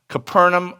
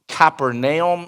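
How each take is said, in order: First: The name is said in a casual, common way. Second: The name is said in a careful, precise way.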